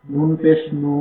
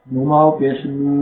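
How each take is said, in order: First: নু said short, with no pull; short vowel. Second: নু drawn out one alif, slowly; long vowel. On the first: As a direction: clip the নু quickly. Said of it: "টানা যাবে না". (নু ছোট করে, টান ছাড়া) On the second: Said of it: "এক আলিফ টান দিয়ে পড়তে হবে". (নু এক আলিফ টেনে, ধীরে) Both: Shown as a demonstration.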